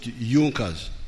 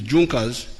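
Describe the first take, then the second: First: The word is said the way locals say it. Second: The word is read the way it is spelled. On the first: This is how the people themselves say it. "they pronounce it Junkers" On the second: This is how the word is written. "It is written Junkers"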